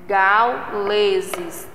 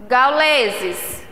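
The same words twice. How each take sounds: First: "Gauleses" broken slowly into gau, le, ses; syllable separation. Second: Said in the usual way. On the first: Shown as a demonstration. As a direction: pause between the syllables of "Gauleses". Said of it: "Tem três sílabas".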